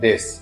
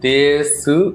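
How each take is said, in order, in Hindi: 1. अंतिम u स्वर छोड़ दिया जाता है। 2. अंतिम u स्वर साफ़ बोला जाता है।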